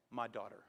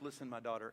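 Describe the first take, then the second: First: Tender. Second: Soft, low and gentle; tender. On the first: Boaz greets Ruth in the field, tender and soft. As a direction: let it land like a blessing. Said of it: "the first words out of his mouth". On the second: Boaz gently reassures the foreign girl, tender. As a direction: say it like a kind father to a frightened girl. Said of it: "I love the way he says this". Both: Shown as a demonstration.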